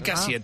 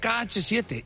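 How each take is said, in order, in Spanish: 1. La letra H se omite del nombre. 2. La letra H se pronuncia dentro del nombre. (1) "lo llama el K7" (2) "que se dice KH7"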